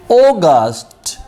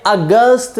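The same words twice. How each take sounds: First: अगस्त with a long open o, oh-gust; long o August. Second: अगस्त with a short a, uh-gust, marked as wrong. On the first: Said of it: "अगस्त उर्दू में पढ़ते हैं". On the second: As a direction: demo अगस्त with a flat short a. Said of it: "ये अगस्त नहीं होता". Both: Shown as a demonstration.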